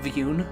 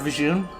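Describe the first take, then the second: First: The middle consonant is a Y sound. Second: The middle consonant is a J sound. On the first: "treats the J as a silent, is it like a, a Y sound?" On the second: "I prefer Vijun"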